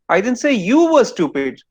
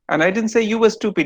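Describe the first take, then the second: First: The word you is stressed. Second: The word stupid is stressed.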